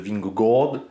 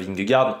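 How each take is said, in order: First: The name is said with Danish sounds. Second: The name is said with French sounds. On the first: The speaker calls it right. "En réalité, il faut dire une sorte de Vingegaard" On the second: The speaker calls it wrong. "à la française, tout le monde dit à peu près Vingegaard"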